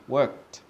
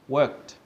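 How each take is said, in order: First: The ending is said as a short 't' sound. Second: The ending is said as a short 't' sound.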